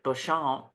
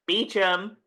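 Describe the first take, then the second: First: The name is said like 'Bo-shom'. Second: The name is said like 'Beecham'. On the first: This is how these characters say the name. "but they pronounce it Beauchamp" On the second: This is how the name is usually said. "his last name is Beecham"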